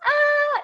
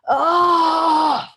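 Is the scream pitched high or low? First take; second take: high; low. First: The scream is high, from the head. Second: The scream is low, from the belly.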